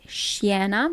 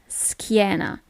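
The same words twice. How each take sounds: First: The ch is said as a ch sound. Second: The ch is said as a k sound. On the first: The speaker calls it wrong. "you don't pronounce it schiena" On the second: The speaker calls it right. "but schiena"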